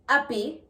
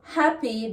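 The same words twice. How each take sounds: First: The word starts without an H sound. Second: The word starts with an H sound.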